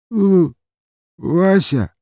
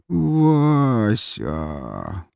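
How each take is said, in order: First: High, hiccupy blurt of a name; drunken short answer. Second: Long, slurred, stretched-out name; drawn-out drunken mumble. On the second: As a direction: drag both syllables out drunkenly. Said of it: "протяжно промямлил парень". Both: A narrator's reading.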